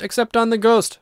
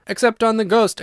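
First: Even higher gleeful squeal on ghost; shrieking. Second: Gleeful high squeal on ghost; shrieking. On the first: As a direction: shriek it louder, dancing about. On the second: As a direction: squeal it out, teasing. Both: A narrator's reading. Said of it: "shrieked the twins as they capered about".

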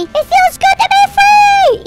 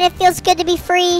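First: High, loud, drawn-out cry of freedom; jubilant shout. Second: Said in the usual way. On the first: Pretend. Gamer celebrating being free as a fish, jubilant shout. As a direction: belt it out slowly and high.

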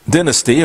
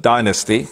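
First: Dynasty with a short i, DIN-asty; British pronunciation. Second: Dynasty with a long i, DIE-nasty; American pronunciation. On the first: Presenter reading out the TV show's title, British pronunciation. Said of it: "or as the Americans call it". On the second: Presenter giving what the Americans call it, American pronunciation. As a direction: say Dynasty as "DIE-nuh-stee". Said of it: "as the Americans call it". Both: Shown as a demonstration.

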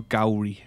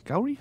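First: Said in the usual way. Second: "Gowrie?" as a question, pitch shooting up high; unsure pronunciation. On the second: Real, not acted. Player checking how to say the place name, "Gowrie?" high and questioning. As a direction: query the name "Gowrie" with a sharp high rise. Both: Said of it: "I think that's how we say it".

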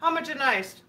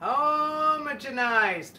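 First: "Homogenized" at normal speed, short first vowel like HAH-muh; quick trial of "Homogenized" as HAH-muh-jen-ized; trying the pronunciation. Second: HOMOGENIZED drawn out at half speed, long O; careful, slow sounding-out of "Homogenized"; slowly sounded out. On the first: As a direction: say "Homogenized" in one go, opening HAH, stress on the first syllable. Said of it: "Did I say it right?". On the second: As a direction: stretch "Homogenized" out slowly, opening on a long HOME. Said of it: "spelling it out slowly". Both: Shown as a demonstration.

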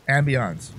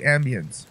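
First: "Ambience" with a French nasal "ahns" ending; French-style AMBIENCE. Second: Said in the usual way. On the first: Shown as a demonstration. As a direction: end "Ambience" on a drawn French "-ahnce". Repeats word with other vowel.

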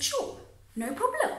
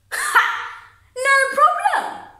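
First: Retold casual yes, high and light; easygoing agreement. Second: Loud, high, drawn-out sarcastic repeat; scornful echo. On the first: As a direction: agree lightly, as if it costs nothing. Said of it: "I said". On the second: Acted. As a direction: throw your own words back in loud, slow mockery. Bitterly mocks own earlier answer.

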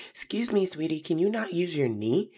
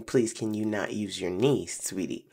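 First: High, carrying call across the playground; sweet but loud call. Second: Said in the usual way. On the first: Retold or imitated. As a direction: call out sweetly but firmly so everyone hears. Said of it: "now I shout very loudly".

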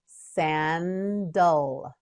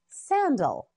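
First: "Sandal" slowly as san, dul; syllable by syllable. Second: Said in the usual way. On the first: Shown as a demonstration. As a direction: stretch both syllables of "Sandal". Teacher models word by syllables.

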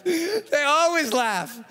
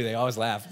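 First: Slow, laughing through the words. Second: Said in the usual way. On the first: Real, not acted. Speaker amused that athletes laugh, laughing slowly. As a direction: stretch it out while laughing. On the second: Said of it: "that's what they do".

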